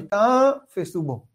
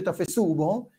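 First: The stress is on the first syllable of tafsu. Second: The stress is on the last syllable of tafsu. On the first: The speaker calls it right. "אלא ותפסו בו. הטעמה עוברת אל התו" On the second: The speaker calls it wrong. "לא אומרים ותפסו בו"

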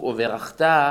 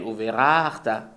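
First: The stress is on the final syllable. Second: The stress is on the penultimate syllable. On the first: It is a command to bless. The speaker calls it right. "הפסוק וברכת מלרע" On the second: It tells that someone once blessed. The speaker calls it wrong. "כשאדם אומר את זה מלעיל"

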